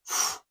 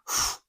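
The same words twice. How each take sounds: The two takes are said the same way.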